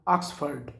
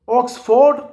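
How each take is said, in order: First: The last syllable is reduced to 'fud'. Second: The last syllable is a full 'ford'. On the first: The speaker calls it right. "ऑक्सफर्ड ये word है" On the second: The speaker calls it wrong. "ऑक्सफोर्ड लफज नहीं है"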